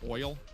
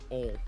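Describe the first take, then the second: First: The vowel glides like oy, in a general accent. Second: The vowel stays plain, in a Southern accent. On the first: "you know the word oil" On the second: "They pronounce it ol"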